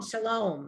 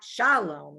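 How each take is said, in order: First: The stress is on the second syllable. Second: The stress is on the first syllable. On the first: The speaker calls it right. "that second syllable always gets the accent" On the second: The speaker calls it wrong. "It's not shalom"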